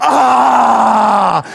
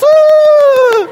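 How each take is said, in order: First: Rough imitated dunking roar; little boy's yell. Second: Very high, loud mimicked shriek; little girl's squeal. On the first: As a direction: roar like a boy slamming in a basket. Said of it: "and he goes". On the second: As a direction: squeal piercingly like a little girl. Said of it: "And the girl goes".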